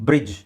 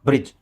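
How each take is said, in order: Both takes have the same delivery.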